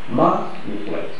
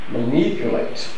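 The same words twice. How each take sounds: First: The stress is not on the second syllable. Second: The stress is on the second syllable. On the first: The speaker calls it wrong. "If it is A, it would have been pronounced manipulate" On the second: The speaker calls it right. "the pronunciation manipulate has stress on the second syllable"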